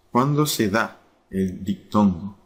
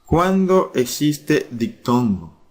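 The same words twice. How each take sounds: First: Said in the usual way. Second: Slow and raised, stress on Cuándo; slow emphatic question. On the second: Shown as a demonstration. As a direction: lean on Cuándo, drawn out like a teacher.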